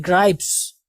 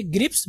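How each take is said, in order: First: ग्राइप्स with a long eye sound; correct pronunciation. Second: ग्रिप्स with a short i, like grips; mispronunciation. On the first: Teacher correcting students' reading, long-vowel ग्राइप्स. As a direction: say ग्राइप्स to rhyme with pipes. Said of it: "ये ग्रिप्स नहीं". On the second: Teacher predicting how students will read it, short-i ग्रिप्स. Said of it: "तो आप यही पढ़ेंगे". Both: Shown as a demonstration.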